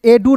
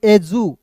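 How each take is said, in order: First: "एडू" said e-doo, with a hard d; wrong reading, D sound. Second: "एजू" said e-joo, with a j sound; correct reading, J sound. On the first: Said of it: "इसे एडू नहीं पढ़ेंगे". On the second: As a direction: say "एजू" with j in place of d. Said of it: "इसे पढ़ेंगे एजू". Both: Shown as a demonstration.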